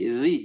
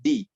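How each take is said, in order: First: The consonant is a hissing sound with tongue out. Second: The consonant is a stop with tongue behind teeth. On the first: The speaker calls it right. "ujung lidahnya perhatikan, dia harus keluar" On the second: The speaker calls it wrong. "jangan disimpan di belakang jadi di"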